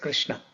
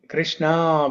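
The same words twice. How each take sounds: First: The final vowel is short. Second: The final vowel is drawn out long. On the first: "not just Krishna" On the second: "with a dirgham"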